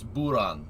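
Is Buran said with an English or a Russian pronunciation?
Russian. It is said the way Russian speakers say it. The speaker calls it right. "that's not how you say that. It's Buran"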